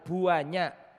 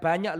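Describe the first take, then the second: First: The word is stretched out with strong emphasis. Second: The word is said plainly, without stretching. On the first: There are an enormous number. "itu isim tafdil menurut orang Jawa. Hiperbola" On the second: There are merely a lot. "Bukan banyak loh"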